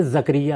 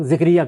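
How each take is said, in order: First: زکریہ said "zakariya", a after the z; زکریہ with a short a first; Quranic pronunciation. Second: ذکریہ said "zikriya", i after the z; ذکریہ with a short i first; common mispronunciation. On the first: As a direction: say زکریہ as "zak-riya", not zikriya. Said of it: "قرآن مجید میں زکریہ ہے". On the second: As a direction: say ذکریہ as "zik-riya". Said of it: "یہ غلط تلفظ ہے". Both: Shown as a demonstration.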